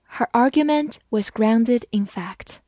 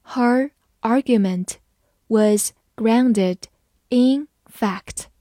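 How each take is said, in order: First: Said in the usual way. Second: Broken into short phrases; phrase-by-phrase model reading; slow reading. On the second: Shown as a demonstration. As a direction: read slowly, chunk by chunk for learners. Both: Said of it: "我们慢慢来读".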